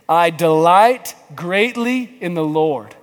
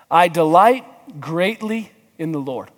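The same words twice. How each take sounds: First: It is read with lively, heartfelt energy. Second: It is read flatly, without much energy.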